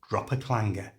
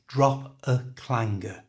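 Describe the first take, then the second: First: The phrase is said at normal conversational speed. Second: The phrase is said slowly and carefully. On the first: "And at normal speed" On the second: "So the whole thing is"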